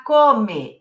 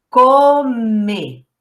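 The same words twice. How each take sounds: First: Said in the usual way. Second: "Come" drawn out with a held m; reading along. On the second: Shown as a demonstration. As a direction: sound out "Come" slowly, lingering on each sound. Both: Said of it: "Eu vou ler com você".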